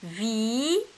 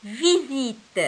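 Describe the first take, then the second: First: "visite" split into vi, zi, te with pauses; separated syllables in "visite", first one rising. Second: "Visite" joined up, louder, falling at the end; firm, run-together "Visite" as the finished answer; whole word blended. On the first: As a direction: sound out "visite" one drawn-out syllable at a time. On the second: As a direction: say "Visite" as one clear, connected word. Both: Shown as a demonstration. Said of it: "Alors c'est".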